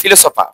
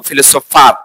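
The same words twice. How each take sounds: First: "ফিলোসোফা" the British way, r dropped; British ফিলোসোফা, open final a; British pronunciation. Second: "ফিলোসোফার" the American way, final r sounded; American ফিলোসোফার, ending in r; American pronunciation. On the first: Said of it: "ব্রিটিশরা উচ্চারণ করে". (British উচ্চারণে "ফিলোসোফা") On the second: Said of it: "যদি আমরা American উচ্চারণের". (American উচ্চারণে "ফিলোসোফার") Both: Shown as a demonstration.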